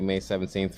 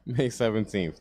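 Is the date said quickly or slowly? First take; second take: quickly; slowly. First: The date is said quickly and excitedly. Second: The date is said slowly and deliberately. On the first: The speaker calls it wrong. "I got so hyped" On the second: The speaker calls it right. "I'm going to slow it down"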